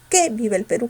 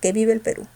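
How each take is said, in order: First: The word 'que' is said with strong stress. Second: The word 'que' is said without stress. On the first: The speaker calls it wrong. "con fuerza" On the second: The speaker calls it right. "sin fuerza"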